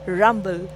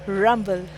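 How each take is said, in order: Both takes have the same delivery.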